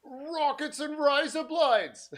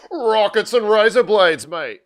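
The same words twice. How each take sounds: First: Put-on Australian accent. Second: A high, loud put-on Australian accent. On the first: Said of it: "more like Rowdy, Rowdy Roddy Piper is what you're starting to sound like". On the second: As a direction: play up the Aussie twang for the kids. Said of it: "I just started speaking in an Australian accent".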